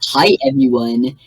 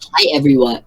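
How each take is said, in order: First: It is said in a put-on Chills voice. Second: It is said in her natural voice.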